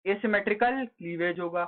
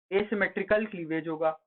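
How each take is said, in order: Both takes have the same delivery.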